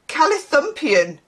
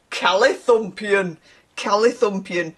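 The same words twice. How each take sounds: First: Said in the usual way. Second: Northern English accent. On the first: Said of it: "wanna say that in a northern accent". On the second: Shown as a demonstration. Reader relishing an odd word, in a northern English accent. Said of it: "say that in a northern accent".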